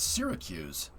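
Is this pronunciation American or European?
American. The word is said the American way. The speaker calls it right. "It's Syracuse"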